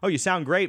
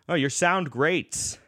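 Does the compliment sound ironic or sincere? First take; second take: sincere; ironic. First: The compliment sounds plain and sincere. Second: The compliment sounds twisted and ironic. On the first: The player really sounded good. "the classic thing at every New York jam session" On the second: The player did not sound any good. "he would twist that"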